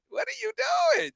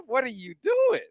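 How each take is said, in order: First: High, shouted disbelief; exasperated shout. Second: Said in the usual way. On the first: Acted. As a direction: yell it at the coach in disbelief. Exasperated at coach's fourth down.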